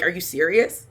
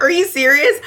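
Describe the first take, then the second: First: Said in the usual way. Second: High, loud disbelieving cry; outraged mock disbelief, much higher; shrill rising are you serious; incredulous. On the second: Repeat of disbelief, much louder.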